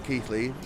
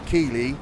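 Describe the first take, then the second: First: The middle has a 'th' sound before the 'l'. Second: The middle has a plain 'l' with no 'th'. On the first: This is how locals say it. "not Keithley" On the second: This is how outsiders from the south say it. "most Southerners would say Keeley"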